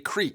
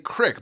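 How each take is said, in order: First: The vowel is long, rhyming with 'seek'. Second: The vowel is short, rhyming with 'stick'. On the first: The speaker is from Georgia. "where I live in Georgia now we call it a creek" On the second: The speaker is from Michigan. "I was born in Michigan and most people there refer to this as a crick"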